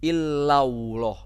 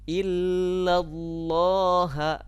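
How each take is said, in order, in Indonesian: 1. Bunyi L bergeser ke bunyi W. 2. Bunyi L yang tebal dan berat dibaca. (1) "bukan begini. ... Bukan illau, bukan ke waw" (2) "tapi ke lam"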